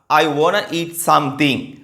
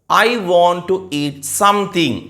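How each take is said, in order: First: 'Want to' is joined and shortened into one word. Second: 'Want to' is said as two full words.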